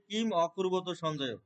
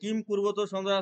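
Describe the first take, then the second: First: An 'a' vowel is heard after kim. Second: No vowel is heard between kim and kurvata.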